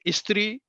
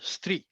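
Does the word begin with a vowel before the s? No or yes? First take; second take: yes; no. First: A short vowel is added before the s. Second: The word starts directly with the s sound. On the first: It sounds like the word for a clothes iron. The speaker calls it wrong. "Don't say स्त्री" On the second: It is the word for woman. The speaker calls it right. "आधा सा और त्र"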